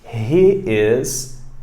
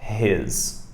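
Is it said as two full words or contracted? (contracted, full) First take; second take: full; contracted. First: Two separate words are said in full. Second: The words merge into one short syllable.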